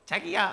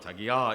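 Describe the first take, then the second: First: The voice is thin and high. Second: The voice is deep and low. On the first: It is irritating to hear. The speaker calls it wrong. "목소리가 가늘어 가지고" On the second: It feels comforting to hear. The speaker calls it right. "딱 굵게 불러주면"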